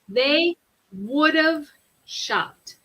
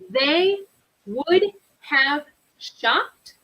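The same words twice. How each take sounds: First: Would have is shortened and run together. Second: Would have is said as two full words.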